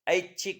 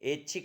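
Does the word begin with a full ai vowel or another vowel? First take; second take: full ai; other vowel. First: The first vowel is a full ai sound. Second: The first vowel is not a full ai. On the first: The speaker calls it right. "ऐच्छिक होता है, ध्यान रखना" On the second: The speaker calls it wrong. "ऐच्छिक नहीं होता है, गलत बोलते हैं अपन"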